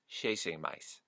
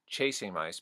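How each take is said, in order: First: 'Chasing' begins closer to a 'sh' sound. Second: 'Chasing' begins with a 'ch' sound.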